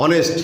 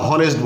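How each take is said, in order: First: অনেস্ট said with no h, starting on o; silent h. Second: হনেস্ট with a sounded h at the start; wrong h sound. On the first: Teacher modelling correct অনেস্ট for students, h silent. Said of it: "বাংলা বানানটা হয় এরকম উচ্চারণটা". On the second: Teacher showing students the wrong pronunciation হনেস্ট. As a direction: push a clear h into হনেস্ট. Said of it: "বলি না". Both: Shown as a demonstration.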